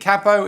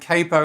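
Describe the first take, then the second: First: It is said the British way. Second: It is said the American way. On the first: "capo is what you say in the U K" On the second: "capo is what is what they say in the U S A"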